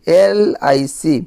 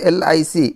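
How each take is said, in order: First: ଏଲ୍ I C very slowly, opening vowel of ଏଲ୍ stretched; drawn-out first sound. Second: Said in the usual way. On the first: Shown as a demonstration. Teacher shows students the first sound of LIC, ଏଲ୍ drawn out slowly. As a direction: stretch ଏଲ୍ to show it starts with "e". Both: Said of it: "ତ ପ୍ରଥମ କ'ଣ ଆସିଲା ଏ".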